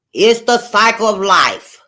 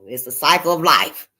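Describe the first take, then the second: First: The cycle of life, louder and slow; emphatic repeat. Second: Said in the usual way. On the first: Real, not acted. Stressing to viewers that life goes on, emphatic. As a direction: lean into the cycle of life slowly.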